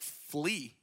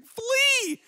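First: Said in the usual way. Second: High-pitched comic scream; mock yell. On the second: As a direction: yell it as a panicked mom, hammed-up. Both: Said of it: "she yelled at him and was like".

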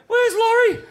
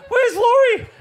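First: Very high, loud frantic question; scanning the whitewater for the missing surfer, panicked; panicked call. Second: Very high, loud frantic question; panicked call. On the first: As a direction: search the water in alarm. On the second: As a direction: shout the name in alarm. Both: Retold or imitated. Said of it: "And we're like".

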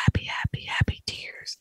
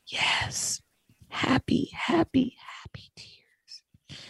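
First: Whispered, fading repetition; soft whisper, mother overcome with joy; whispered happy tears. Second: A hushed, choked-up mother; barely voiced, mother answering through tears; whispered tearful reply. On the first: Retold or imitated. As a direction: breathe the words out like the tearful mom. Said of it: "She goes". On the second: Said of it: "And she said".

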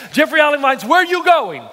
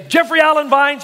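First: Raised, scolding mother's call; higher, insistent call after a son; yelling child's full name. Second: Calling out the full name, scolding; a mother calling her son, exasperated; yelling child's full name. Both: Retold or imitated. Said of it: "my mother would scream at me".

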